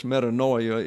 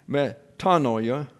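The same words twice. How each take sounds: First: Metanoia said quickly, met-a-NOI-a, English style; casual English metanoia; easier English way. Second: Slow Greek metanoia, stress on the second syllable; careful Greek pronunciation of Metanoia. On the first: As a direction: say metanoia the easy Anglicized way. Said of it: "more easily said". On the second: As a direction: say Metanoia slowly, me-TA-noia, as in Greek. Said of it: "the accent's on the second syllable". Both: Shown as a demonstration.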